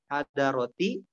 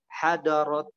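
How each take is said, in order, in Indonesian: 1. Kata itu berakhir dengan vokal i tambahan. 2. Kata itu berakhir pada konsonan t tanpa vokal. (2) "kalau enggak hadarot ya"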